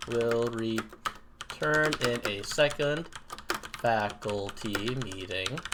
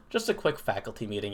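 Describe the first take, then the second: First: Slow, stretched-out words; dictating while typing. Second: Said in the usual way. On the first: Real, not acted. Streamer typing a break notice for viewers, slow dictation. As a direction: say each word slowly as you type it. Types out text while saying it.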